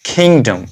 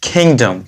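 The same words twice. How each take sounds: No difference in how they are said.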